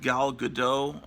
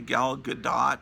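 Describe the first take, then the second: First: The final T of the surname is silent. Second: The final T of the surname is pronounced. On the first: The speaker calls it wrong. "it's real hard to pronounce that T" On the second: The speaker calls it right. "it's supposed to be Gal Gadot"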